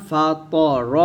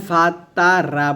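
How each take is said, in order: First: ফা ত র short, with thick heavy ত and র; correct heavy reading. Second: ফা তা রা with long open light vowels, the wrong way; wrong light reading. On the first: Teacher gives the correct heavy short ফা ত র. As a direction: say ফা ত র quick and heavy. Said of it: "ফা ত র বলতে হবে". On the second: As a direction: stretch out ফা তা রা as the mistake to avoid. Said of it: "এখানে ফা তা রা বলা যাবে না". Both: Shown as a demonstration.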